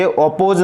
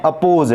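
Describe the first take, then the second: First: अपोज misread with a rounded 'o' start; wrong first vowel. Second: अपोज starting with a short 'uh'; unrounded schwa opening in अपोज; correct first vowel. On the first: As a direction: say अपोज as 'op-pose'. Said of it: "ये अपोज नहीं है". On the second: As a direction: say अपोज as 'uh-pose'. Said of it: "ओ का sound यहाँ पर अ है". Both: Shown as a demonstration.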